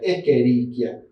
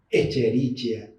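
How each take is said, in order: First: The 'ch' is said as a 'k' sound. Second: The 'ch' is said as a 'ch' sound. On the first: The speaker calls it right. "La C H es una K" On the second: The speaker calls it wrong. "Muchas veces dicen"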